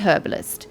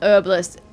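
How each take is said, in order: First: The h at the start is pronounced. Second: The h at the start is silent.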